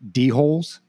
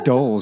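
First: It is said as two syllables, dee-holes. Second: It is said as one syllable, doles. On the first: The speaker calls it wrong. "I'm assuming this is how you pronounce it" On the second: The speaker calls it right. "I guess it's doles, right?"

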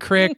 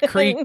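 First: The vowel is a short i, Midwest style. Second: The vowel is a long ee sound.

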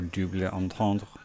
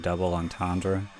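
First: It is said with a French pronunciation. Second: It is said with an English pronunciation. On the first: "Yes, that's right, I'm pretentious, I speak French" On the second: "I guess you would call it a double entendre"

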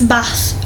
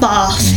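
First: It is said in a northern English accent. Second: It is said in a southern English accent. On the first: This is how it is said locally. The speaker calls it right. "It's Bath" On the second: This is how it is said elsewhere. The speaker calls it wrong. "not Bath, here"

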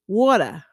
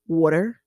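First: It is said in a New York accent. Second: It is said in a Baltimore accent. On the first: "if you're from New York, it's water" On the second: "Baltimore, that area"

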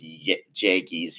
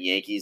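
First: The word begins with a J sound. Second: The word begins with a Y sound. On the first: "with a J" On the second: "instead of saying Yankees"

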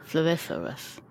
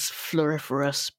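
First: The word is said with a put-on lisp. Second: The word is said plainly without a lisp. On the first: It is said in a deliberately silly way. "It sounds like you need to say it with a fake lisp, basically" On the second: It is said the normal way. "You said it correctly"

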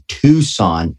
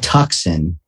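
First: The city name gets the local pronunciation. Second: The city name gets a nonlocal pronunciation. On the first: The speaker calls it right. "Did you guys know it's Tucson, not Tucson?" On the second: The speaker calls it wrong. "not Tucson"

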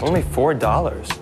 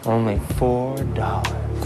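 First: It is said in a plain voice. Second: It is said in a sexier voice.

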